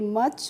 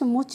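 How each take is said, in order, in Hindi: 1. स्वर एक छोटी 'uh' ध्वनि है। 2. स्वर एक 'oo' ध्वनि है। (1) "एम यू सी एच को हम पढ़ेंगे मच" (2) "मुच नहीं पढ़ते हैं"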